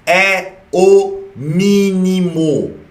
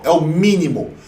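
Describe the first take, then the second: First: "É o mínimo" stretched very slowly, every word weighed; drawn-out emphasis. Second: Said in the usual way. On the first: Shown as a demonstration. ("É o mínimo" bem devagar, palavra por palavra) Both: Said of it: "repete a regra para enfatizar".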